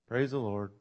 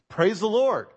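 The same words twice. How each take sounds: First: It is said quietly and flatly. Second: It is said loudly and excitedly.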